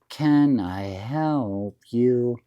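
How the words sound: It is said in a sweet, friendly, melodic way. The offer of help is kind and sincere. "You never say it that nice"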